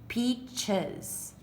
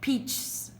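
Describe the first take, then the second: First: An extra vowel comes before the s, two syllables. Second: The s is added straight on, one syllable. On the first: The speaker calls it right. "So you put the s so that you can say peaches" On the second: The speaker calls it wrong. "No, that doesn't sound right"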